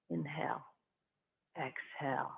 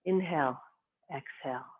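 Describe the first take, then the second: First: Barely voiced, like a breath itself; a whispered breath cue for the class. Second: Softer cue, fading on exhale; a calm breath cue that fades away; hushed breath cue. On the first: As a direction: whisper the inhale, breathe out the exhale. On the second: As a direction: let the exhale trail off softly. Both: Shown as a demonstration.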